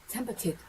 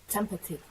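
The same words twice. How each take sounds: Both takes have the same delivery.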